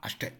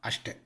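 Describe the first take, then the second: Both takes have the same delivery.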